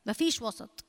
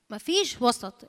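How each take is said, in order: First: Soft first take. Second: مفيش stressed, firm falling tune; firm repeat. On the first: Preacher quietly repeats the saying, softly. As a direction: quietly drop مفيش وسط. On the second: Preacher repeats her point to the church, firmly. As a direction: land مفيش وسط firmly. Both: Shown as a demonstration.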